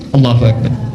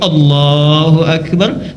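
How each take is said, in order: First: The phrase is said quickly and hurriedly. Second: The phrase is said slowly and carefully. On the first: The prayer is rushed when praying alone. The speaker calls it wrong. "Allahu Akbarnya kurang satu detik" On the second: The prayer is done with devotion when others watch. The speaker calls it right. "takbirnya bagus ya, gerakannya pelan-pelan"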